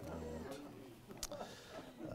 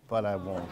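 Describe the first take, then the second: First: Breathy stage whisper. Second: Said in the usual way. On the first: Shown as a demonstration. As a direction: drop to a whisper for the punchline. Whispers the last repeat.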